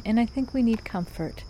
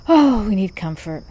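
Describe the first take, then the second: First: Said in the usual way. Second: "Oh, we need comfort" louder, leaning on "Oh"; a real, heartfelt plea, louder; heartfelt emphasis. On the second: Real, not acted. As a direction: sigh out "Oh" and land "comfort" like you mean it. Repeats the point with feeling.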